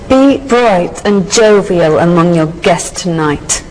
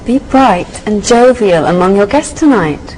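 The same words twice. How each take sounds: First: It sounds hostile, as if to an enemy. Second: It sounds warm, as if to a friend.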